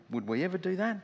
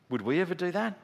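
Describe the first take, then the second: No difference in how they are said.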